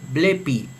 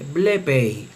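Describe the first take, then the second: First: The final vowel sounds like 'i'. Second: The final vowel sounds like 'ei'. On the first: "en la pronunciación reucliniana se lee blepi" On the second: "en la pronunciación erasmiana se lee blepei"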